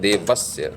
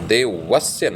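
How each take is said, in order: First: The v touches upper teeth to lower lip. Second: The v is a rounded w with both lips. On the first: The speaker calls it right. "क्योंकि दंतोष्ठ है मेरे ख्याल से व" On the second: The speaker calls it wrong. "अब देवस्य नहीं"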